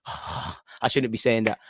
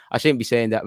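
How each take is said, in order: First: Sighing, slow and much softer, half to himself; sheepish sigh. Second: Said in the usual way. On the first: Real, not acted. Fan regretting urging a dive, sighing softly. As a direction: catch yourself and mutter the regret with a sigh.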